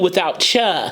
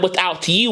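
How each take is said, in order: First: The t and y merge into 'cha'. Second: The t and y stay separate: 'you'. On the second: "it's not without you"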